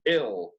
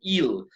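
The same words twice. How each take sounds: First: The vowel is a relaxed, short 'i' sound. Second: The vowel is a tense, pure 'ee' sound. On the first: The speaker calls it right. "sino ill, pero es una I un poquito jalada hacia I" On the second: The speaker calls it wrong. "No es tan ill"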